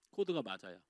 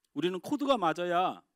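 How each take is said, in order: First: Hushed, lowered repeat of 코드가 맞아야; quiet echo. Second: Said in the usual way. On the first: Shown as a demonstration.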